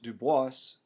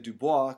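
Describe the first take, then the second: First: The final S sound is pronounced. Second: The final S sound is silent. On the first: This is how the man himself preferred it. "he wanted it pronounced Dubois ... he liked the pronunciation with the S" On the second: This is the local, original pronunciation. "we would say Dubois because we're from South Louisiana"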